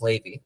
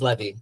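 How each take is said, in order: First: The name has its Yiddish pronunciation. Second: The name has its modern Hebrew pronunciation. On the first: "the Yiddish pronunciation that I grew up with" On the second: "the modern Hebrew pronunciation is Levi"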